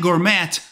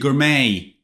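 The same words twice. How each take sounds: First: The word is sounded out as it is spelled. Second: The word is said with its usual sounds. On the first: The speaker calls it wrong. "You write gourmet" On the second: The speaker calls it right. "but you read gourmet"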